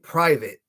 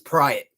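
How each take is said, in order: First: The v sound in the middle is pronounced. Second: The v sound in the middle is dropped. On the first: "it wasn't private" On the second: "completely eliminate the letter V"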